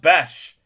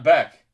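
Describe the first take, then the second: First: The name ends with a 'sh' sound. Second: The name ends with a 'k' sound. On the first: The speaker calls it right. "It's pronounced Besh" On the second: The speaker calls it wrong. "not Beck"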